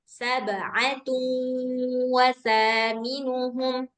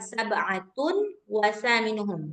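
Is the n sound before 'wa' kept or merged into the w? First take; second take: merged; kept. First: The n sound merges nasally into the w. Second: The n sound is clearly pronounced before the w. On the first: The speaker calls it right. "Hilangkan suara tanwinnya" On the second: The speaker calls it wrong. "Bukan sab'atun wasaminuhum. Nah, nggak gitu bacanya"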